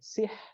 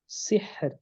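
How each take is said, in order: First: The final r is left out entirely. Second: The final r is lightly trilled. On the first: The speaker calls it wrong. "Atau ra-nya hilang" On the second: The speaker calls it right. "Jadi ra-nya takrir harus ada takrir, tapi tidak boleh berlebihan"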